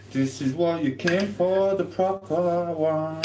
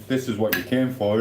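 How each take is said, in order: First: Higher, slow grand announcement; hammed-up showman voice; proper announcer voice. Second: Said in the usual way. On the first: Shown as a demonstration. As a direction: present it like a big reveal.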